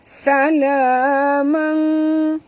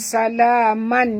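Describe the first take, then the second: First: The final n is hidden with a nasal hum. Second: The final n is pronounced clearly, without hum. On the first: The speaker calls it right. "Jadi bunyi dia mang" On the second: The speaker calls it wrong. "bunyi dia bukan salaman"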